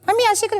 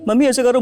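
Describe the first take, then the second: First: It is said in a high, thin child's voice. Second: It is said in a deep, grown man's voice.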